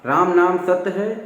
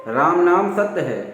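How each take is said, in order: The two takes are said the same way.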